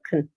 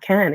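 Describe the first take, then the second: First: The word is unstressed and reduced. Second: The word has a full, clear vowel. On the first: The speaker calls it right. "it's actually can" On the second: The speaker calls it wrong. "It's not can"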